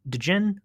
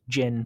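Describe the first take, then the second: First: A distinct D sound begins the word. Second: The word begins without a separate D sound. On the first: "I'm saying the D just so you know how to find it" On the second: "technically just Djinn"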